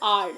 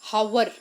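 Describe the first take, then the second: First: The word starts with a vowel sound. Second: The word starts with a sounded h. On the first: The speaker calls it right. "the h in this word ... is silent. So how we pronounce it? As r" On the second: The speaker calls it wrong. "we don't say it as our, hour. No"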